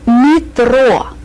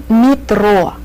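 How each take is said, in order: First: Metro as "mee-tro", Russian vowels; teacher modelling Metro in Russian. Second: Said in the usual way. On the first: Shown as a demonstration.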